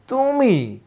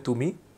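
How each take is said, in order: First: It is said in a scornful, demeaning tone. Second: It is said in a plain, neutral tone.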